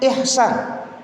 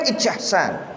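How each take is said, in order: First: The consonant before the s sounds like 'h'. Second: The consonant before the s sounds like 'ch'. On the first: The spelling stands for the Arabic letter ha. The speaker calls it right. "Jadi bacanya ihsan" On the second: The spelling is read letter by letter. The speaker calls it wrong. "kalau dibaca luri-luri kan ijsan"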